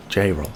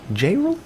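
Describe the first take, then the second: First: J-Roll falling low, as a statement; settled name. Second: J-Roll rising high like a question; questioning name. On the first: Host settling on a viewer's name, decided. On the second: Host trying a viewer's name, questioning. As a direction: lift "J-Roll" up sharply, unsure of it. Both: Shown as a demonstration.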